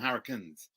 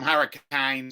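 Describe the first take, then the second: First: The stress falls on the first part of the word. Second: The stress falls on the last part of the word. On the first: This is how the speaker's own region says it. "We call them hurricanes" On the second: This is how the other person's region says it. "You call them hurricanes. ... you emphasize the last bit"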